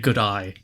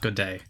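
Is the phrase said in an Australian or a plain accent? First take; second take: Australian; plain. First: The phrase sounds like good eye, Australian-style. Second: The phrase is said plainly, without Australian vowels. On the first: The speaker calls it right. "In order to do an Australian accent... You say good eye" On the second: The speaker calls it wrong. "not good day"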